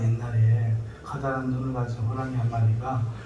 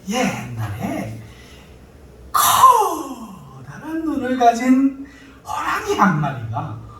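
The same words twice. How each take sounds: First: It is told in a plain, ordinary speaking voice. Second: It is told in a lively, distinctive storyteller voice. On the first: The children lose interest and wander off. The speaker calls it wrong. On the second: The children pay close attention. The speaker calls it right.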